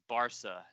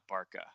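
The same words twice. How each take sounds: First: The middle consonant sounds like an s. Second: The middle consonant sounds like a k. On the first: The speaker calls it right. "You know that makes it sound like an S" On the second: The speaker calls it wrong. "It's not Barca"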